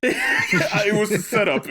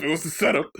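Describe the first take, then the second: First: Laughing. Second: Said in the usual way. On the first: Real, not acted.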